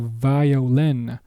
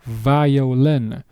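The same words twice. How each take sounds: First: The vowels glide and bend as in English. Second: The same.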